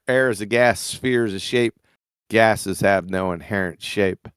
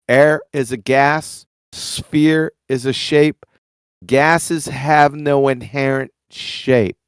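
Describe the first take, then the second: First: It is spoken at a fast pace. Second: It is spoken at a slower pace. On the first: "I did go fast" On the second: "I'll go slower"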